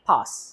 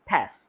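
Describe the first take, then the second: First: The word is said with a British accent. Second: The word is said with an American accent. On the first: "British অ্যাকসেন্টে বলেন বলতে হবে পাস" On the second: "American অ্যাকসেন্টে বললে বলতে হবে পাস"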